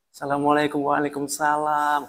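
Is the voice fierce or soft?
soft. It is said in a soft, sweet, melodious voice. The woman sounds inviting to a man. The speaker calls it wrong. "perempuannya ini bersuara merdu"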